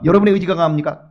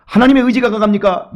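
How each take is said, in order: First: 여러분의 stressed as the weaker rival; stress on your will. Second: 하나님의 punched loud, falling firmly; stress on God's will. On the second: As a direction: hit 하나님의 hard, like a verdict. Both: Shown as a demonstration.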